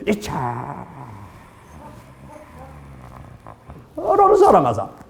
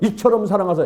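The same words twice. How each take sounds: First: The word 이처럼 is drawn out long. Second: The word 이처럼 is said quickly.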